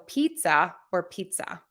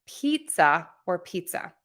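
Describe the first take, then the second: Both takes have the same delivery.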